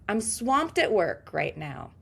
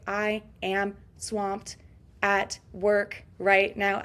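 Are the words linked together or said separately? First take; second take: linked; separate. First: The words run together like one word. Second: Each word is said separately, robot-like. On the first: The speaker calls it right. "Swamped at work sounds like one big word" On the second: The speaker calls it wrong. "I sound like a robot, don't I, when I separate all the words?"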